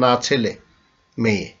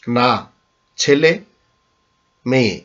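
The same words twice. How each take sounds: First: The pause comes after ছেলে. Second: The pause comes right after না.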